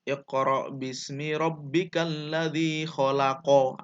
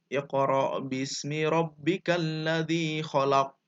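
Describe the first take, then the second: First: The last word ends with a full vowel. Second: The last word ends on a stopped consonant. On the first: This is the word's original vowelled form. "Aslinya begitu" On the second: The final vowel is dropped when stopping at the verse end. "dimatikan di akhir"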